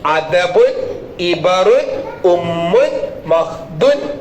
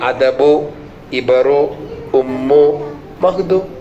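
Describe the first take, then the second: First: Each word ends with a final n sound. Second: Each word ends on a vowel, no n. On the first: "തെന്മീളം ഇട്ടാൽ" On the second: "തെന്മീളം ഇല്ലാതെ ഒറ്റ നമ്മിട്ടെടുത്താലോ"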